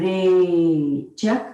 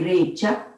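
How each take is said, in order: First: The word is said slowly and drawn out. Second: The word is said quickly and short.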